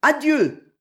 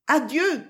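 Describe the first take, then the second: First: High, loud goodbye called back; called-out farewell. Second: High, gentle goodbye; a sweet-voiced farewell, lightly murmured. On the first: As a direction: call back across the distance. Group calls back a farewell. (adieu lancé haut et fort) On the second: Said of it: "murmura une douce voix". (adieu doucement murmuré, voix haute) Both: A narrator's reading.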